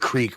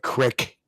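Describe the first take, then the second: First: The vowel is a long 'ee' sound. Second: The vowel is a short 'i' sound.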